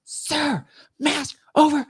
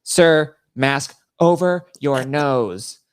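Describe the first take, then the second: First: Very high, strained imitated yelling; mock yell. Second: Louder, higher mock official command; imitated TSA order. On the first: TSA lady to passenger still staring at his bag, mock high yell. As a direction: yell it like an exasperated TSA officer. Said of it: "She, like, yells at me". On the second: TSA lady to passenger ignoring her, imitated stern order. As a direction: call it out slowly, spacing each word of the order. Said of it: "the T S A lady was like".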